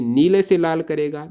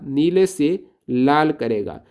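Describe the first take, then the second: First: Said in the usual way. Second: Slow emphatic repeat. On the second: Shown as a demonstration. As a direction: drill नीले से लाल करेगा slowly, word by word. (धीरे-धीरे ज़ोर देकर दोहराएँ)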